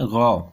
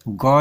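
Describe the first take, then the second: First: The right one, गौ from the throat; throaty gh. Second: गौ with a hard stop g; the wrong one, गौ with plain g. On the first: Teacher giving the correct ghain sound after the wrong one. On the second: Teacher marking the hard g as wrong, plain. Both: Shown as a demonstration. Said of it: "गौ नहीं".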